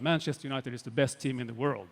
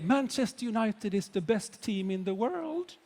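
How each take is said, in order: First: It is said firmly and with strong emphasis. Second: It is said in an open, tentative way. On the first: The claim is not up for debate. The speaker calls it right. "you use your voice as well. Boom, like that" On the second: The claim sounds open to debate. The speaker calls it wrong. "people will not believe you"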